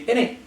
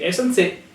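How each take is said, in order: First: The phrase is clipped short, sounding like 'in it'. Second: The phrase is said in full, both syllables clear. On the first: "They just make it like quite short" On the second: "instead of saying isn't it"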